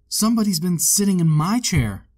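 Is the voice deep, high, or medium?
medium. It is said in a middle-sized bear voice.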